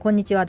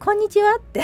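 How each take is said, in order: First: The greeting sounds flat and cold. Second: The greeting sounds warm and smiling.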